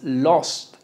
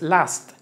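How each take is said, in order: First: The vowel is a closed o sound. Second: The vowel is a plain a sound. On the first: "porque no es lost" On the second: "tampoco es last"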